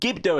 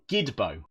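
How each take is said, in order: First: The b sound comes before the d sound. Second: The d sound comes before the b sound. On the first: The speaker calls it right. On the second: The speaker calls it wrong.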